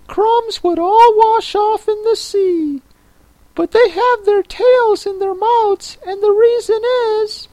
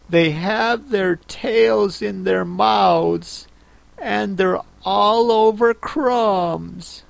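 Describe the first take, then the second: First: Very high, squeaky creature voice; Mock Turtle. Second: Put-on high, slow, thoughtful girl voice; Alice. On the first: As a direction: correct her in a tiny, very high voice. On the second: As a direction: recall it slowly in a higher voice.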